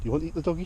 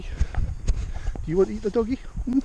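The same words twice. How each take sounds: First: Said in the usual way. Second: Higher, slow sing-song tease; teasing pet talk. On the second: Real, not acted. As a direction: draw it out teasingly to the horse. Teasing horse, repeated.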